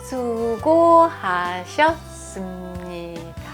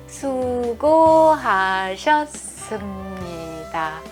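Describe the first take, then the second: Both takes have the same delivery.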